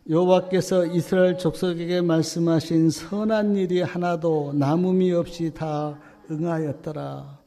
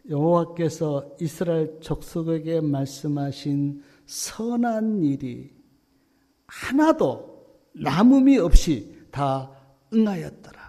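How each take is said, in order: First: It is read at normal speed. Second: It is read slowly.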